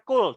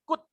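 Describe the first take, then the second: First: The L in the word is pronounced. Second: The L in the word is silent. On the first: The speaker calls it wrong. "Ini nggak dibaca could ya" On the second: The speaker calls it right. "O sama L-nya nggak dibaca"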